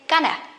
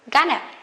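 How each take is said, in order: The two takes are said the same way.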